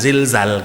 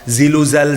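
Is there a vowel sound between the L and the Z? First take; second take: no; yes. First: The L closes the syllable with a stop. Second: A vowel is inserted after the L. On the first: The speaker calls it right. "karena itu kedengarannya mesti ada stopnya" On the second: The speaker calls it wrong. "Kalau dihidupkan semuanya ndak akan kedengaran stop"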